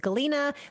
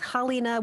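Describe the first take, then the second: First: The name begins with a hard G sound. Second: The name begins with a soft H sound. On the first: This is how the name is said in Russian. "the Russian pronunciation of that name is" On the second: This is how the name is said in Ukrainian. "The Ukrainian pronunciation is Halina with a soft H"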